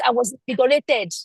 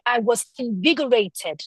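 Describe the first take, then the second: First: "I was invigorated" said as if you know what you mean; more polished and confident. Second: Said in the usual way. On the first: Shown as a demonstration. Teacher showing a polished speaker to the class, confident. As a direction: sound sure of it, polished. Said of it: "somebody else comes and says". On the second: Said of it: "imagine that I'm speaking and I say".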